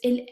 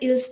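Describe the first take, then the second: First: The word ends without any s sound. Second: The word ends with an audible s sound. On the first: The speaker calls it right. "It's il" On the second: The speaker calls it wrong. "It's not ils, That's really um not the pronunciation"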